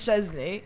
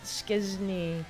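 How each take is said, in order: First: The name begins with a 'ch' sound. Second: The name begins with an 'sk' sound. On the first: The speaker calls it wrong. "easy version is Chesney ... That's not the correct version" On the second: The speaker calls it right. "the way we actually- ... it was like Skiz, Skizny"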